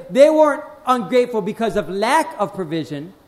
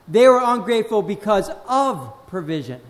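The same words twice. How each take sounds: First: "lack" punched in "lack of provision"; stress on LACK. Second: "of" stretched and set apart before "provision"; stress on OF. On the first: Preacher corrects the reason for ingratitude, stressing "lack". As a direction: set up the contrast by leaning on "lack". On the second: Preacher gives the true reason for ingratitude, stressing "of". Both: Real, not acted.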